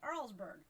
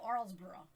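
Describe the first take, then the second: First: The name ends with a short 'berg' sound. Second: The name ends with a longer 'borough' sound. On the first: This is how she says it after moving. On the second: This is how she said it before moving.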